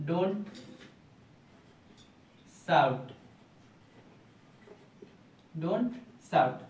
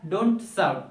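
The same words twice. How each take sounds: First: Each word set apart with long pauses, like dictation; dictating word by word. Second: Said in the usual way. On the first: Shown as a demonstration. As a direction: say it word by word for students to write. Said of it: "गला मत फाड़ो या चिल्लाओ मत का English क्या होगा". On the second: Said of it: "दोनों का English क्या".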